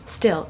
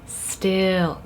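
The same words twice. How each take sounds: First: The word is said at normal length. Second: The word is drawn out long. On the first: Simply not moving. "it's not just still" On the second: Really, really not moving at all. "by lengthening that particular word"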